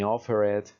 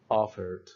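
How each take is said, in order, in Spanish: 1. La terminación se pronuncia como una sílaba extra. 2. La terminación es solo un sonido d, sin sílaba. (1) "ni offer it" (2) "no le añado una sílaba extra"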